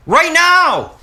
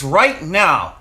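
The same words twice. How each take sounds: First: Much higher, louder outburst; high, loud insistence on NOW; emphatic shout. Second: Said in the usual way. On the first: Real, not acted. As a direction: shout it to make viewers look. Repeats it emphatically to viewers.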